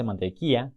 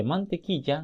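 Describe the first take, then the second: First: Mantequilla as "mantekia", ll dropped. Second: Mantequilla with a clear ll, "mantekiya"; correct ll. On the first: Teacher showing the mistaken form of mantequilla. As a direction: drop the ll in mantequilla. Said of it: "no dice mantequilla". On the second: Teacher giving the correct form of mantequilla. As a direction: sound the ll fully in mantequilla. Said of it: "dice mantequilla". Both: Shown as a demonstration.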